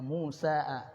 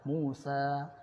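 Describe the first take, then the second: First: The word ends with an added short 'a' vowel. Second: The word ends plainly with no added vowel. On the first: The hidden case vowel is spelled out. "Musa'a, tapi tersembunyi, tidak terucap" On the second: The case vowel stays hidden. "bacanya tetap Musa"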